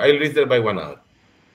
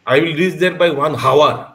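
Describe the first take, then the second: First: Hour begins with a vowel, no h sound. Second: Hour begins with a clear h sound. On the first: The speaker calls it right. "एच silent होता है, आवर बोल देते हैं ना।" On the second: The speaker calls it wrong. "हावर बोलता है क्या हम लोग? नहीं"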